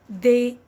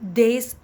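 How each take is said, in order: First: The word ends without any S sound. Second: The word ends with an audible S sound. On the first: The speaker calls it right. "They, yes" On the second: The speaker calls it wrong. "We do not pronounce the S. D E S, theys, no"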